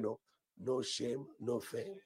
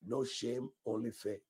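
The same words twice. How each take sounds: First: Slow, drawn-out "No, no shame, no fame"; slow mock of the wrong declaration; slow misheard version. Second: Said in the usual way. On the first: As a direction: echo the wrong version slowly. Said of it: "I thought you're declaring". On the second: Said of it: "Can you declare".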